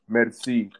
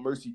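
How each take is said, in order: First: The word is said with a French pronunciation. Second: The word is said with an American pronunciation. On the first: It is the original word meaning thank you. "correct pronunciation is uh merci" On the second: It sounds cooler and easier to say. "we Americanized it to make it sound a little a little cooler"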